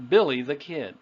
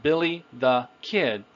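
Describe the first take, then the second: First: Put-on "Billy the Kid" as one linked phrase; "Billy the Kid" connected, falling at the end; natural intonation. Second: Put-on "Billy... the... Kid", each word separate. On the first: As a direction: stress "Billy", run on lightly to a falling "Kid". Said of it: "normal intonation or natural intonation". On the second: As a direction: pause between "Billy", "the" and "Kid". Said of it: "So we don't say just Billy the Kid". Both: Shown as a demonstration.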